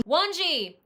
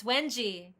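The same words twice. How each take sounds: First: "Wanji" with an "ah" in the first syllable; mispronounced name. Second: "Wenji" with a short "eh" in the first syllable; corrected name pronunciation. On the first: Real, not acted. Host calls guest by name, "Wanji" mispronounced with an "ah". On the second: Shown as a demonstration. Host corrects guest's name, "Wenji" with a short "eh". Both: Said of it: "I've been pronouncing your name wrong".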